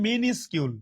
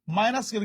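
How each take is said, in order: First: মিনিসকিউল with short "mi-nis" before "kyul"; correct pronunciation. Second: মাইনাস কিউল said as "minus" plus "kyul"; spelling pronunciation. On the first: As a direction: say মিনিসকিউল starting "mi", not "my". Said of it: "কিন্তু উচ্চারণ হবে". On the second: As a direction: say মাইনাস কিউল with a long "eye" in the first syllable. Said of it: "বানান ভুল না করতে চাইলে বলতে হবে মাইনাস". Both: Shown as a demonstration.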